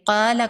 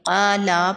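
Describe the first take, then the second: First: The vowel after the L is short. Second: The vowel after the L is drawn out. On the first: One person said. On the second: More than one person said.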